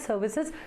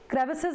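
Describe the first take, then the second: First: The word begins with an s sound. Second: The word begins with a kr sound. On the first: The speaker calls it wrong. "I always call it as services" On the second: The speaker calls it right. "So it is uh, crevices"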